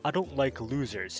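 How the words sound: It is said in a put-on character voice.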